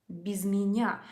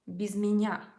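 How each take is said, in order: First: The two words run together as one word. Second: The two words run together as one word.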